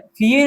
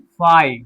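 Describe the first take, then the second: First: The vowel sounds like 'ee'. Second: The vowel sounds like 'eye'. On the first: The speaker calls it wrong. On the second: The speaker calls it right.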